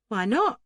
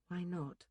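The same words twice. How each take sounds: First: Raised, rising challenge; sharp challenge. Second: Very soft, falling echo; inward echo. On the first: Duncan questioning the bather's refusal, loud sharp challenge. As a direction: demand it loudly, pitched up at the end. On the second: Bather echoing Duncan's question to herself, hushed. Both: A narrator's reading.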